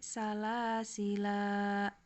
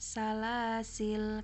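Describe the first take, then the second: First: The word ends in a long 'a' vowel. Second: The word ends on an unvoweled 'l' consonant. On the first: "di sini menetapkan alif berarti salah sila" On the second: "Salasil karena alifnya dibu dibuang"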